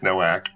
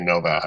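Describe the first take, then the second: First: The name is said with an American accent. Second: The name is said with a Polish accent.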